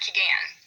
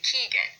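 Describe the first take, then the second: First: The stress is on the second syllable. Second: The stress is on the first syllable. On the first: The speaker calls it wrong. "not Keegan" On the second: The speaker calls it right. "we say the first syllable just a little bit louder"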